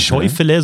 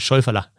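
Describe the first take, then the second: First: The word ends in a short 'e' sound. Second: The word ends in an 'er' sound. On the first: The speaker calls it wrong. "so wie man schreibt" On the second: The speaker calls it right.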